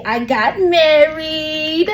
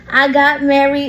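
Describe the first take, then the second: First: Long drawn-out squeal on MARRIED; excited announcement. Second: Said in the usual way. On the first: Real, not acted. Host telling listeners her big news, excited and drawn out.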